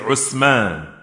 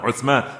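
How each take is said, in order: First: It starts with u and has an s sound. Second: It starts with u and has a th sound. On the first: "they say Usman" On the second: "Instead of saying Uthman"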